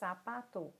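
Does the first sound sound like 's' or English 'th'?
s. The first sound is an 's' sound. This is how it is said in the Americas. "aqui na América, nós dizemos sapato... como se fosse o S"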